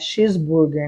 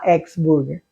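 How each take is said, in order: First: The X is said like 'shees'. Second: The X is said like 'ex'.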